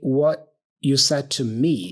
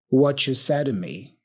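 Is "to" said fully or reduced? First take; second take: fully; reduced. First: The word "to" is pronounced fully and clearly. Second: The word "to" is reduced to a quick "da". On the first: "He doesn't say what you said to me" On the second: "So to here is reduced to a da da da da"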